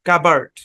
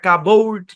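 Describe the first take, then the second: First: The second vowel is a short neutral sound. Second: The second vowel is a long 'or' sound. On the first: The speaker calls it right. "এখানে সাউন্ডটা হচ্ছে আর্ট, কাবার্ড" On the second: The speaker calls it wrong. "Long ওর sound দিয়ে পড়ছি না কাবোর্ড"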